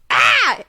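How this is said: The cry sounds excited.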